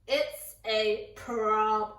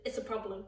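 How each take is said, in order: First: It's a problem said slowly, each word weighed; slow emphatic repeat. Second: Understated. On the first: Warning the audience about mum finding the meat, slow and ominous. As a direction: drag it out with dread. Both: Shown as a demonstration.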